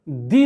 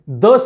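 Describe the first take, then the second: First: The vowel is a long ee sound. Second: The vowel is a short, weak uh sound. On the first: The next word starts with a vowel. "कभी कभी द का उच्चारण दी भी होता है" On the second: The next word starts with a consonant. "द का उच्चार द तभी होता है जब आ, जिस नाउन के पहले होता है वो कॉन्सोनेंट से शुरू होता है"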